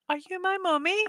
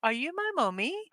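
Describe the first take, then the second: First: Put-on much higher, softened child's question; eerie high-pitched quote; lost-child impression. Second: Put-on high, soft, singsong child's question; eerie sing-song quote, pitch swooping; lost-child impression. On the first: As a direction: repeat it high and plaintive, rising at the end. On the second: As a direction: plead softly in a higher put-on voice. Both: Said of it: "Walk around s-, town saying".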